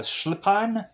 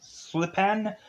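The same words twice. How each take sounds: First: "Schlipan" with SH at the start and an "ahn" ending; "Schlipan" with a broad ah in the last syllable; alternative pronunciation. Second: "Schlipan" with a plain S and an "an" as in pan; "Schlipan" as slip-pan, unsure and questioning; alternative pronunciation. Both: Shown as a demonstration.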